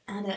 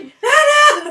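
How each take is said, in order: First: The name is said calmly and plainly. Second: The name is exclaimed loudly and emphatically.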